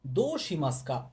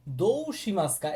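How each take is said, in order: First: দো শিমাস্কা with দো as a plain "do", no u sound; u dropped. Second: দো শিমাস্কা with দো said as a long "dou", the u sounded; wrong reading: দো শিমাস্কা pronounced "dou shimasuka". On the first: Teacher gives students the right reading, u left silent. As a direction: say দো শিমাস্কা as "do shimaska", drop the u. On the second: Teacher shows students the wrong reading, spelled-out u. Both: Shown as a demonstration. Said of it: "এটা না পড়ে আপনি কি বলবেন?".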